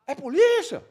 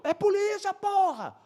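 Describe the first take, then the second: First: High, loud shouted query; acted questioning shout. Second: Very high, exasperated yell; acted insistent shout. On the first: Uniformed officer shouting back to plainclothes cop, acted questioning yell. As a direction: yell back to check who it is. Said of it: "Aí ele". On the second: Plainclothes cop confirming to officer across the road, acted insistent shout. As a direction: shout back a forceful confirmation.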